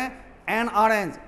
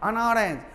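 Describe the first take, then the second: First: The article is a full, stressed vowel. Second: The article is a short, weak, reduced vowel.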